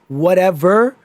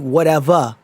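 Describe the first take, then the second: First: The word ends with a clear r sound. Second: The word ends with an open ah sound. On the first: The speaker calls it wrong. "instead of whatever" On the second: The speaker calls it right. "ends with a a"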